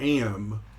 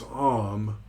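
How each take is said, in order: First: The word is said with an 'a' vowel. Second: The word is said with an 'o' vowel. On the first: The speaker calls it wrong. "I mispronounced this word all the time, and I called it Am" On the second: The speaker calls it right. "it's Om"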